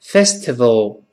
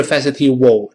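First: Festival with a clear V; correct festival. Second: Festival as 'fes-i-tee-wo'; wrong festival. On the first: Teacher corrects the learners, festival properly pronounced. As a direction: say festival as 'FES-tuh-vul'. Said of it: "字母V出现是festival". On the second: Teacher rejects that sound, mispronounced festival. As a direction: say festival with W replacing V. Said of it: "不是festival这个声音啊". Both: Shown as a demonstration.

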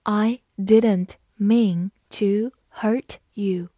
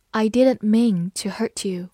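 First: Slow, deliberate read-aloud; slow classroom model reading. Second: Said in the usual way. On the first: Shown as a demonstration. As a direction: stretch each word out for learners. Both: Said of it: "好，慢读一遍。".

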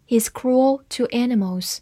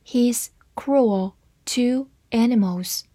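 First: Said in the usual way. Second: Each word set apart; slow, careful demonstration for learners; slow reading. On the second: Shown as a demonstration. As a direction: read it out slowly, word by word. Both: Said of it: "慢慢来读".

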